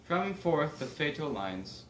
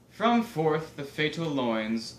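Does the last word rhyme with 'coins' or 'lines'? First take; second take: lines; coins. First: The last word rhymes with lines. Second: The last word rhymes with coins. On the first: This is the original pronunciation. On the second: This is the modern pronunciation.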